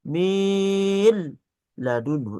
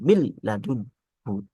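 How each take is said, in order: First: The n sound is drawn out before the l. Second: The n merges straight into the l. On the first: The speaker calls it wrong. "kadang dipanjangkan min ladunhu enggak" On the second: The speaker calls it right. "tapi langsung"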